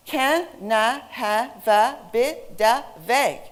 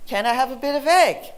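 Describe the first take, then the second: First: "Can I have a bit of egg" slowly split as ca-nai-ha-va-bi-da-veg; each consonant jumps to the next vowel in "Can I have a bit of egg"; linked syllables. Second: "Can I have a bit of egg" run together as canai-hava-bidaveg; fluent, linked "Can I have a bit of egg", no gaps between words; natural linking. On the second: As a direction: join every word of "Can I have a bit of egg" at normal speed. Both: Shown as a demonstration. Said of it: "is what we say".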